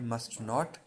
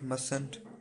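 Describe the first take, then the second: First: It is said as two full words. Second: It is one contracted word without a t sound. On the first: "मस्ट का है जी मस्ट नॉट" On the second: "इसको मसंट पढ़ेंगे, टी silent है"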